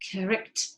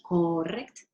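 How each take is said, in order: First: The first vowel is a weak schwa. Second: The first vowel is a full, clear vowel. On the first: The speaker calls it right. "Es esa otra vez ese schwa" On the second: The speaker calls it wrong. "no es correct"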